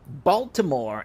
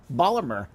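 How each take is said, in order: First: "Baltimore" with every syllable sounded; outsider's Baltimore. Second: "Baltimore" slurred as locals do, like "Bawlmer"; local Baltimore pronunciation. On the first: Retold or imitated. Shop owner quoting customer's word back, "Baltimore" fully pronounced. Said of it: "the fact that you said Baltimore". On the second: Shown as a demonstration. Shop owner correcting customer, "Baltimore" in the local slurred way. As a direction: run "Baltimore" together, swallowing the T. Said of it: "and not Baltimore".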